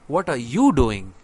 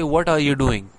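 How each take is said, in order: First: It is asked with pointed stress on a word. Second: It is asked plainly with no special stress.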